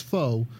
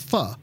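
First: "pho" said like foe, with a long o; the wrong way: "pho" as foe; common mispronunciation. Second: "pho" said short, like fuh; the right way: "pho" as fuh, no long o; correct pronunciation. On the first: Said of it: "some people think it's pronounced pho". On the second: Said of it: "I asked the guy, I believe it's pronounced". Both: Shown as a demonstration.

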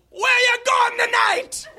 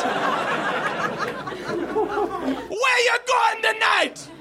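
First: High shouted Jamaican cabbie; Jamaican accent. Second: High slow shouted Jamaican voice; Jamaican accent. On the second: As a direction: stretch it out in a Jamaican yell. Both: Acted. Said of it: "admiring my Jamaican accent".

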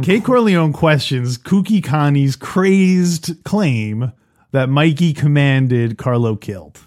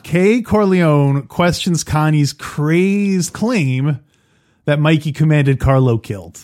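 First: Very slow, each K sound in Kay, Kooky, Connie's, Carlo hit hard; slow alliteration. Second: Slow, punching each hard K in Kay, Corleone, crazed, claim; alliterative read. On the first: Host repeating the alliterative summary on request. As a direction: lean into every K, slowly. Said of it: "One more time, [name]". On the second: Host reading his alliterative summary line slowly. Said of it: "that is worth repeating". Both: Shown as a demonstration.

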